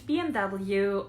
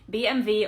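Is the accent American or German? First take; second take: American; German. First: It is said with an American accent. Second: It is said with a German accent. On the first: "I actually pronounce them very American" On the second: "It's actually B M W"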